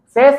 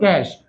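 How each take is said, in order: First: The word begins with an s sound. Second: The word begins with a k sound. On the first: The speaker calls it wrong. "इसको सेस नहीं बोलते हैं" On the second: The speaker calls it right. "क्या बोलेंगे, कैश"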